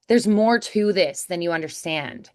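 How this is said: It is said in an emotional American accent.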